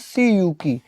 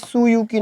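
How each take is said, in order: First: The first syllable has an 'ee' vowel. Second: The first syllable has an 'oo' vowel. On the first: The speaker calls it right. "सुयुकी ना बोलकर सीयूकी" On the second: The speaker calls it wrong. "सुयुकी ना बोलकर"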